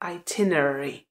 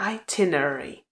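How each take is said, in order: First: The stress is on the second syllable. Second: The same.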